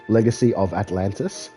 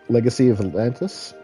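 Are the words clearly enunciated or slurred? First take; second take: clear; slurred. First: Each word is pronounced clearly and distinctly. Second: The words are run together and slurred. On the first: The speaker calls it right. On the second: The speaker calls it wrong.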